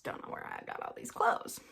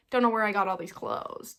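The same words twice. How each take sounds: First: Very low, soft echo; low muttered repeat. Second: Said in the usual way. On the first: Pretend. Baffled by her piles of laundry, low muttering. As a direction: drop it to a quiet low mutter.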